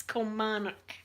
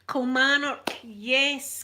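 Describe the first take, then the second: First: Said in the usual way. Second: Louder, higher burst on Kilmarnock as it comes back; sudden recall. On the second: Real, not acted. Vlogger remembering the town's name, blurting Kilmarnock louder and higher.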